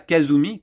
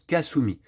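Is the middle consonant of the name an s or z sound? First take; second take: z; s. First: The middle consonant is a voiced z sound. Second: The middle consonant is a voiceless s sound. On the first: The speaker calls it wrong. "ça se prononce pas Kazumi, comme je le fais depuis le début" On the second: The speaker calls it right. "ça se prononce Kasumi"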